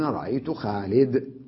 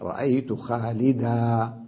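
First: The last word ends on a bare consonant. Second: The last word ends with a long a vowel. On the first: "أي بالسكون على الدال" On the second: This is the most common standard form. "أبقي حرف المد مد العوض"

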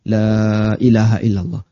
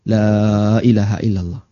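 No difference in how they are said.

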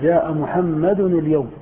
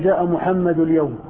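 First: Muhammad ends with an added n sound. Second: Muhammad ends without an added n sound. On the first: The speaker calls it right. "لا يحذف منه التنوين" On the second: The speaker calls it wrong. "ما يمكن تقول"

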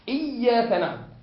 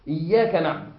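First: The doubled consonant is held with strong emphasis. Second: The doubled consonant is held with moderate strength. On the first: The speaker calls it wrong. "وأنت تقول لي" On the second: The speaker calls it right. "لا إياك نعبد بتجديد متوسط"

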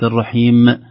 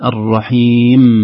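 First: The final mim ends with an echoing bounce. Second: The final mim ends cleanly without a bounce. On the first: The speaker calls it wrong. "القلقلة هذه ما تصلح في النون ولا في الميم" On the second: The speaker calls it right. "الرحيم وليس الرحيم"

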